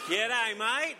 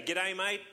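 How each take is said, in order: First: Loud, higher hammed-up Aussie "G'day, mate"; Australian accent. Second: A lighter jokey Aussie "G'day, mate"; Australian accent. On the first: Pastor greeting Australians in the congregation, hammed-up Australian accent. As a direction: belt out a jokey Australian greeting. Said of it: "I do that every time". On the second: Pretend. Pastor teasing the crowd with the Australian joke, light Australian accent. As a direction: toss off the Australian greeting again as a tease.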